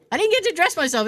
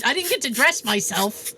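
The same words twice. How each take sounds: First: Higher, louder insistent repeat; emphatic repeat. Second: Said in the usual way. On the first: Real, not acted. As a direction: say it again with more insistence, stress on get. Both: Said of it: "repeated with emphasis".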